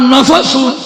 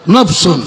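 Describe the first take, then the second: First: An a vowel comes between the f and s. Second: No vowel comes between the f and s. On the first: "নুনের উপরও জবর, ফায়ের উপরও জবর" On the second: "নফস যখন হবে নু ফায়ের উপর সাকিন হবে"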